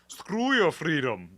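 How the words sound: It is said in a deep German-accented voice.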